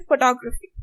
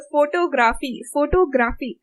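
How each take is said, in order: First: "photography" as fuh-TOG-ruh-fee, only TOG stressed; English-style stress. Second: "photography" said FOH-TOH-GRAH-FEE with full vowels; every syllable stressed. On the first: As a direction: stress the second syllable of "photography", reduce the rest. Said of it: "not stressing on all the vowels". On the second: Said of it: "someone who will say vegetable". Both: Shown as a demonstration.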